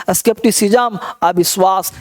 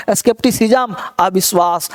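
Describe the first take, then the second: No difference in how they are said.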